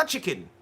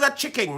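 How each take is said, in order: First: Said in the usual way. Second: "chicken" said as "chick-king"; deliberate mispronunciation. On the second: Shown as a demonstration. Host renaming the sticker, "chicken" pronounced "chicking". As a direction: end "chicken" with a ringing -ing. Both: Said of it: "not a chicken".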